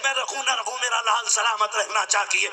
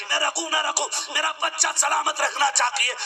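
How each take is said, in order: First: A hint of a pleading mother, kept in the preaching voice; mother speaking through the preacher, lightly voiced; mother's plea. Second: Higher, shouted repeat of the plea; the mother's sacrifice hammered home in a shout; mother's plea cried out. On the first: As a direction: voice the mother giving herself up, understated. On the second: Retold or imitated. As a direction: cry it out as the mother willing to die. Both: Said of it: "ماں کی زبان سے جملہ نکلتا".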